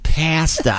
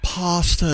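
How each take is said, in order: First: The word is said with a plain, ordinary vowel. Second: The word is said with a posh, affected vowel.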